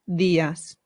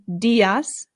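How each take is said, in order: First: The d is soft, tongue behind teeth. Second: The d is hard, like English d. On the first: The speaker calls it right. "It softens the sound. ... it becomes días" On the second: The speaker calls it wrong. "instead of saying días"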